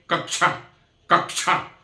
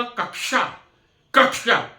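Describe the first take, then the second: First: "कक्षा" said as "कक्चा", with a च sound; students' wrong way. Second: "कक्षा" with a clear क्ष cluster; correct Hindi. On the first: Retold or imitated. Teacher imitating students' mispronunciation. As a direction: soften क्ष into च in "कक्षा". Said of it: "मेरे कई विद्यार्थी ऐसे हैं". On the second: Shown as a demonstration. Teacher to class, showing correct Hindi. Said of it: "मैं कहूंगा".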